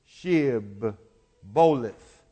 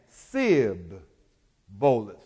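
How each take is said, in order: First: The word begins with a 'sh' sound. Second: The word begins with an 's' sound.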